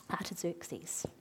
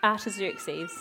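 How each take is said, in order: First: "Artaxerxes" whispered under the breath; whispered name. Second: Said in the usual way. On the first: Real, not acted. Preacher trying out an unusual name, whispering "Artaxerxes". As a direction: whisper "Artaxerxes" as if checking it privately.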